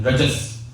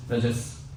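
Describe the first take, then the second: First: Rajas said with a rising tune; teaching the word Rajas, rising; term taught. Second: Rajas repeated lower and softer; term repeated. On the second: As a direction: Rajas echoed quietly to settle it. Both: Shown as a demonstration. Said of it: "repeated term".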